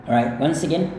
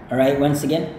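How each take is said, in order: No difference in how they are said.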